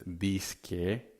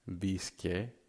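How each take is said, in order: The two takes are said the same way.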